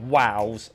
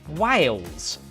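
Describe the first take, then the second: First: The word sounds like 'wows', with no L. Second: The word is said with a clear 'ails' sound. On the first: "like how I say it" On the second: "I said it properly there"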